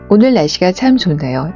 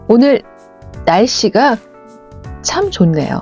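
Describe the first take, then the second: First: It is said flat with no word stressed. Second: The word 날씨 is stressed with raised tone. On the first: The speaker calls it wrong. "좀 밋밋하고 지루하게 들리지 않으셨나요?" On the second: The speaker calls it right. "저는 날씨에 강조점을 주었어요"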